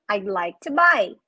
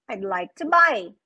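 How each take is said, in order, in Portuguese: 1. As palavras são ditas juntas e reduzidas. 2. As palavras são ditas juntas e reduzidas.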